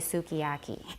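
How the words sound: It is said the way American speakers say it. "Americans will say sukiyaki"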